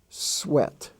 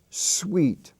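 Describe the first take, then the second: First: The vowel is a short E sound. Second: The vowel is a long E sound. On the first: The speaker calls it right. "It's pronounced sweat" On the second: The speaker calls it wrong. "is not pronounced sweet"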